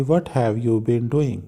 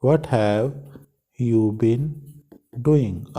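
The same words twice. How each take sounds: First: Each word read out slowly and clearly; slow, clear teacher read-through; slow model reading. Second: "What have", "you been", "doing?" with long pauses between; teacher chunking the question for students; broken into chunks. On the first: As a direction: read the question slowly for the class. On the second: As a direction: build the question piece by piece with pauses. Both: Shown as a demonstration. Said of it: "ये हमने question बनाना है".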